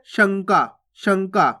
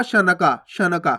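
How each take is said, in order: First: शंका in two beats, shan-kaa, nasal before k; no vowel after the nasal in शंका; सही उच्चारण. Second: शनका split into sha-na-ka, falling; a full vowel after the n in शनका; पूरा ना उच्चारण. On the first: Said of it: "और जबकि अपन पढ़ कैसे रहे". (शंका, नाक से आधा न) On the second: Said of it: "तो पूरा ना का उच्चारण हो जाएगा". (शनका, पूरा न बोलकर) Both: Shown as a demonstration.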